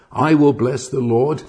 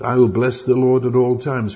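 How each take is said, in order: First: WILL lifted with an excited rise; riotous excitement. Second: Said in the usual way. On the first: Shown as a demonstration. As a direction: proclaim it as if beside himself with joy. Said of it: "can only be said with riotous excitement". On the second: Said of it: "Please don't read that in a monotone voice".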